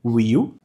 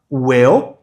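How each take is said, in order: First: "will" said as "weel"; tense ee in "will"; low "will" with Portuguese i; wrong long-i version. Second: "Will" said as "wel"; eh-like vowel in "Will"; short-i pronunciation. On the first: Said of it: "de vai e não". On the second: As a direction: relax the i of "Will" toward ê. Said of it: "o I com som de E". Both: Shown as a demonstration.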